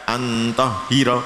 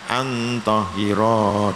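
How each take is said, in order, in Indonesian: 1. Vokal terakhir dibaca pendek. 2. Vokal terakhir dibaca panjang. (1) "tidak antohiro" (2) "roknya tetap dibaca panjang"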